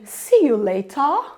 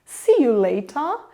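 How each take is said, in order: First: It has a British accent with a stretched vowel. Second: The same.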